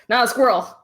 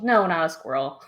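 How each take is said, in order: First: Not said higher and louder; stress on Not. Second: Said in the usual way. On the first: Real, not acted. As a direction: hit the word Not. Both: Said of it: "self-correction".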